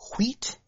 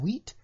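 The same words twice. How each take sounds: First: It is said in a put-on character voice. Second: It is said in the speaker's normal voice.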